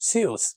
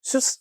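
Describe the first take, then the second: First: The vowel is said long. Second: The vowel is said short. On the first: The speaker calls it right. "ഊ എന്നുള്ളത് നീട്ടി" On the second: The speaker calls it wrong. "എന്നല്ല"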